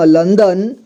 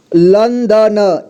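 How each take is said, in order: First: Said in the usual way. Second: लंदन drawn out slowly as lan-da-na; syllable-by-syllable reading. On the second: Shown as a demonstration. Teacher showing learners how to join letters, लंदन slowly as lan-da-na. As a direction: sound out लंदन slowly, final vowel voiced. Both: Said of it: "जोड़ जोड़ करके पढ़ना है".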